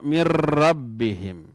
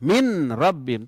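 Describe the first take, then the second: First: The n merges into the r without nasal sound. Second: The n is pronounced separately before the r. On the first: The speaker calls it right. "contoh dengan ro" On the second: The speaker calls it wrong. "Tidak boleh min rabbihim"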